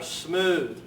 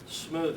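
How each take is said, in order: First: The word is said a little louder. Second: The word is said quietly and low.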